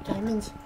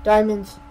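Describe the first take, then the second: First: "Diamonds" repeated softly, in hushed awe; awed hush. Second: "Diamonds" said loud and bright; excited. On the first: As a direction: breathe "Diamonds" in wonder. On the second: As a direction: announce "Diamonds" in a thrill. Excited discovery. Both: Real, not acted.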